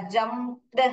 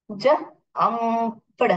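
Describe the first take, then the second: First: Said in the usual way. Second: "जंप्ड" stretched slowly sound by sound; phonics sounding-out. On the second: Shown as a demonstration. Teacher demonstrating the past form, slowly sounded out. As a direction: draw out "जंप्ड", separating j, um, pd.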